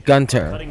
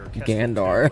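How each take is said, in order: First: The name is said ending in 'ter'. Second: The name is said ending in 'dar'. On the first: The speaker calls it right. "It is supposed to be Gunter or Gunther" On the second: The speaker calls it wrong. "not Gandar"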